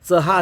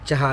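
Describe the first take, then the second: First: The first consonant sounds like a dental 'ts'. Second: The first consonant sounds like a palatal 'ch'. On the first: The speaker calls it wrong. "च चा उच्चार चहा असं नाही म्हणत" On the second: The speaker calls it right. "उच्चार करताना चहा असा उच्चार होतो. तर तिथं य मिसळला जातो"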